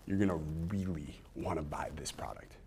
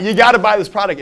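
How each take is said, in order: First: Intense whisper; bottled enthusiasm. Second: Loud, high hard sell; over-the-top pitch. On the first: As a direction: whisper it with held-in excitement. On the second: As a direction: shout the pitch at them. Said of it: "Like, it's not". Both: Shown as a demonstration.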